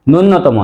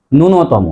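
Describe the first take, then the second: First: ন্যূনতম as "nunnotomo"; wrong pronunciation. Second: ন্যূনতম as "nu-no-to-mo"; correct pronunciation. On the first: Teacher rejects the error, long nn in ন্যূনতম. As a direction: double the middle n in ন্যূনতম. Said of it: "ন্যূনতম নয়". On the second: Teacher sums up for students, single n in ন্যূনতম. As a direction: keep one middle n in ন্যূনতম. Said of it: "সঠিক উচ্চারণ করব". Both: Shown as a demonstration.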